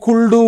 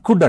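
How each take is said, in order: First: The l is sounded, said as kuldu. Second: The l is silent, said as kud. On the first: The speaker calls it wrong. "Spelling ప్రకారంగా pronounce చేస్తే" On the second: The speaker calls it right. "దీన్ని మనం కుడ్ అంటాం"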